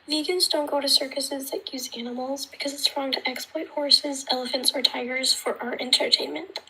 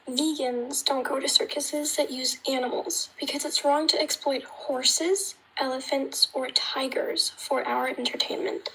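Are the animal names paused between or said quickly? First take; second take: quickly; paused. First: The animal names are said quickly together. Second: Each animal name is emphasized with pauses.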